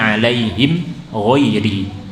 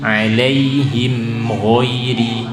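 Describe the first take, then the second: Both takes have the same delivery.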